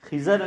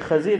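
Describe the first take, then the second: First: The first vowel is i, the second a. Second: The first vowel is a, the second i. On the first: The speaker calls it wrong. "खिज़र नहीं है" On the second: The speaker calls it right. "खज़िर है"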